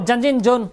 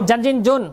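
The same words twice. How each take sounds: Both takes have the same delivery.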